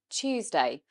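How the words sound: It begins with a 'ch' sound. "We actually say it more of a ch sound"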